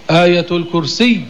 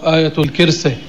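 First: الكرسي as "al-kursiyy", with held final y; full u and a doubled ending on الكرسي; correct classical pronunciation. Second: الكرسي said as "al-kirse"; wrong colloquial pronunciation. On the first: Teacher gives the verse's proper name, shadda held. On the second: Teacher shows what is not in the Quran, colloquial kirse. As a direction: end الكرسي on a short e, with i in the first syllable. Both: Shown as a demonstration. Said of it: "لا يوجد في القرآن".

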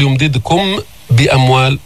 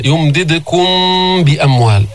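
First: Wrong يمددكم بأموال, short م with no hum; plainly separated م and ب in يمددكم بأموال; no ghunnah. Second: يمددكم with a long nasal hum on م before بأموال; sustained humming م linking يمددكم بأموال; with ghunnah. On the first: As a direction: cut the م of يمددكم off before بأموال. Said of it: "لا نقول". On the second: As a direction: hold the م of يمددكم, then release into ب. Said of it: "على الغنة". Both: Shown as a demonstration.

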